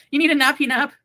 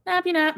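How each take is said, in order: First: Put-on high, loud cooing baby talk. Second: Put-on higher, squeakier baby talk. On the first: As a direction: coo at the pet like a baby. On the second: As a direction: squeak it even higher at the pet.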